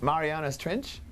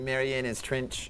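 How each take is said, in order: First: "Mariana's Trench" with an open "ah" in "Mariana's", a slow rise; "Trench" drawn out with a questioning rise; American pronunciation. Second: "Mariana's Trench" slow, with a short "i" in "Trench" like "Trinch"; imitating Kiwi pronunciation. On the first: Retold or imitated. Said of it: "You're like". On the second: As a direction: mimic "Trench" said as "Trinch", drawn out. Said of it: "laughing about the way you say Mariana's Trench".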